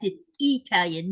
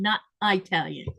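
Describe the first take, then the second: First: "Italian" with a short first vowel, ih-TAL-yun; correct Italian. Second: "Italian" said as eye-TAL-yun; mock the mistake, eye-talian for "Italian"; wrong Italian. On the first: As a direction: open "Italian" without the EYE sound. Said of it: "That is incorrect". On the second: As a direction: open "Italian" with a long EYE. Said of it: "you cannot say that that way". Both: Shown as a demonstration.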